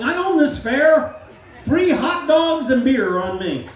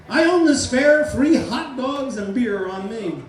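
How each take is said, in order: First: Loud, slow, high boast; proud shout. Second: Slow bellow, high on the first line; proud shout. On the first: Hypnotist shows the volunteer how to boast about the fair, loud and slow. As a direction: bellow it like you own the place. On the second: Hypnotist repeats the fair boast for the volunteer, loud and slow. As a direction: boom the free-beer offer. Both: Shown as a demonstration. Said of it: "yell it as loud as you can".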